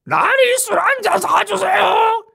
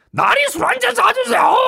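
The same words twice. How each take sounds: First: Very high, strained, slow croak; a wrecked voice after swallowing charcoal; ruined voice. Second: A wrecked voice after swallowing charcoal; ruined voice. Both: Shown as a demonstration. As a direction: sound like charcoal burned your throat. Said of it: "이런 목소리를 한다".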